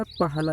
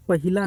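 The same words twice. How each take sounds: First: Said in the usual way. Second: पहिला said with an extra i, pa-hi-la; wrong form pahila. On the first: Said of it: "लिखा जाता है". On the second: Shown as a demonstration. Teacher showing students the wrong spelling, pa-hi-la. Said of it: "नहीं लिखा जाता".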